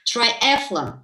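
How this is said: The word is pronounced the English way. "the right pronunciation is triathlon"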